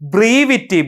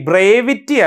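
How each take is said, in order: First: The first vowel is a long ee sound. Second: The first vowel is an e sound. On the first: The speaker calls it right. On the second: The speaker calls it wrong. "ബ്രേവിറ്റി അല്ല കേട്ടോ"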